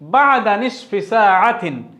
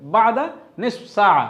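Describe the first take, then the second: First: Every syllable is spoken fully, including the endings. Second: It is said quickly, with the endings dropped. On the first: This is the standard formal form. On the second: This is how it is said in regional colloquial Arabic.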